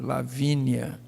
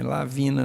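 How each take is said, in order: First: The name ends in a 'nia' sound. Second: The name ends in a plain 'na' sound. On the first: The speaker calls it right. "é Lavínia" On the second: The speaker calls it wrong. "Não é Lavina"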